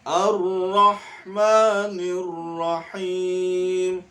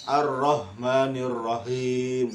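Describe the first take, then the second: First: "Ar-Rahmanir Rahim." slow with light ha; drawn-out "Ar-Rahmanir Rahim." with thin ha; correct reading. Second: "Ar-Rahmanir Rahim." rushed and careless; wrong reading. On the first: Teacher models the thin ha for pupils. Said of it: "haknya tipis juga ya". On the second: Teacher shows the class a wrong reading. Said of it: "Nah, itu salah ya". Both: Shown as a demonstration.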